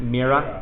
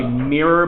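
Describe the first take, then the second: First: "Mira" said the Boston way, final R dropped to "ah"; Boston accent. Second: Said in the usual way. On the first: Shown as a demonstration. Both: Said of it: "but in a Boston accent".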